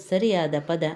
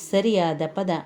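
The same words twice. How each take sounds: Both takes have the same delivery.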